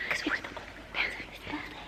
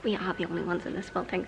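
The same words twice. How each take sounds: First: Quick, barely audible whisper. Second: Low, soft, quick murmur with voice; hushed voice. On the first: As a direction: whisper it fast, as a hushed aside. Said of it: "I also don't know why we're whispering". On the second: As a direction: drop the whisper but stay very quiet. Repeats whispered line in low voice. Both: Real, not acted.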